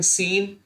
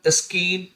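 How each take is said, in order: First: No k sound follows the opening s. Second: A k sound follows the opening s. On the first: The speaker calls it right. "इसको क्या पढ़ते हैं" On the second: The speaker calls it wrong. "अगर सी silent नहीं होता"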